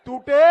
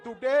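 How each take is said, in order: First: Loud one-word challenge; shouted rising question; prompting the crowd. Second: Said in the usual way. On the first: Real, not acted.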